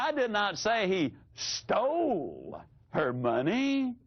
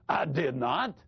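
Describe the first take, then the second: First: The stress is on the word stole. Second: The stress is on the word not.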